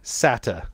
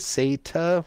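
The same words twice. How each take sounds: First: The first syllable sounds like 'sah'. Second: The first syllable sounds like 'say'. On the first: "Or SATA to you" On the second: "Is it S-A-Y-T-A"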